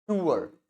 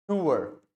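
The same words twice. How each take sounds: The two takes are said the same way.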